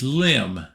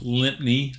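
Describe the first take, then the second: First: The name is said the local English way. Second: The name is said the American way. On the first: The speaker calls it right. "It is Lim" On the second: The speaker calls it wrong. "like the Americans would pronounce it"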